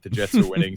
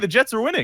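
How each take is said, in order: First: It is said in a dismayed, grudging tone. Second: It is said in a cheerful, excited tone. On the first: The news is expected to end in embarrassment. The speaker calls it right. "It's like, oh, god damn it" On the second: The news is welcome. The speaker calls it wrong. "it's not with that that type of tone"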